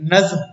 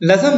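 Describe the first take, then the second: First: The final consonants are said together, without a vowel. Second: An extra vowel splits the final consonants. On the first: The speaker calls it right. "जो दुरुस्त तलफ्फुज है" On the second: The speaker calls it wrong. "नज्म नहीं"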